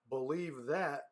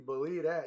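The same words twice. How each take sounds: First: Each sound is carefully and crisply enunciated. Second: The words are run together in a relaxed way. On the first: The speaker calls it wrong. "that's not the time to enunciate" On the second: The speaker calls it right. "It's got to be believe that"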